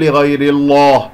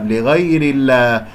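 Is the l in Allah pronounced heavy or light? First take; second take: heavy; light. First: The l in Allah is heavy. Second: The l in Allah is light. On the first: The speaker calls it wrong. "لا تقول" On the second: The speaker calls it right. "فإذا مكسور قبل اسم الجلال الله ترقق اللام"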